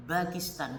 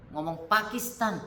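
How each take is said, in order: First: "Pakistan" said as bakistan, with b in place of p. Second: Said in the usual way. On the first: Retold or imitated. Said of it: "nggak akan bisa ngomong Pakistan". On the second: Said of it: "Tapi kalau ngurus P".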